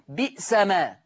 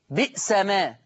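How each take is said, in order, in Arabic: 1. في الكلمة الأولى همزة قطع في الوسط. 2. في الكلمة الأولى همزة قطع في الوسط.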